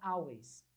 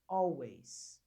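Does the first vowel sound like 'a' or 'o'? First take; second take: a; o. First: The first vowel sounds like 'a'. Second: The first vowel sounds like 'o'. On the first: The speaker calls it wrong. "geralmente o pessoal fala always" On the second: The speaker calls it right. "A com L sempre tem som de O"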